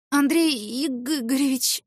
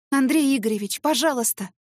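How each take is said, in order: First: Slow, drawn-out name in shock; stunned greeting. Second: Urgent begging, higher; pleading. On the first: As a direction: let his name stretch out in disbelief. Stunned to see her boss. (ошеломлённо, медленно) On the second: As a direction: plead to bring him back to his senses. Pleading with the raging boss. (умоляюще) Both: Acted.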